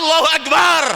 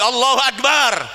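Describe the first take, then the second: First: It is said heroically, with more energy. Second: It is said plainly, with less energy.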